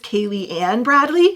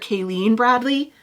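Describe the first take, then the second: First: The first name is said as three syllables. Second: The first name is said as two syllables. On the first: The speaker calls it right. "I believe you pronounce this Kaylee Ann Bradley" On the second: The speaker calls it wrong. "I called her Kayleen Bradley"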